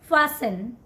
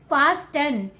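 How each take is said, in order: First: The T sound is silent in the middle. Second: The T sound is pronounced in the middle. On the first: The speaker calls it right. "T is silent here" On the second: The speaker calls it wrong. "Don't call it fasten"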